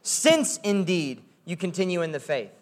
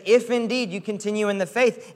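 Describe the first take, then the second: First: Weight on "Since", said softly, falling; "Since" stressed, quiet falling close. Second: "If" stressed with a rising tune; "If" lifted and held, phrase rising. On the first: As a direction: lean on "Since" as the expected word. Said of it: "he would say something like". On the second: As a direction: punch "If" as the real condition. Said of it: "He says". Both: Shown as a demonstration.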